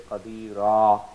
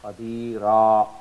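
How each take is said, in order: The two takes are said the same way.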